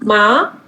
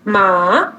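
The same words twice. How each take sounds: First: The pitch rises from mid to high. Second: The pitch dips low, then rises. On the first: "second tone" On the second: "third tone"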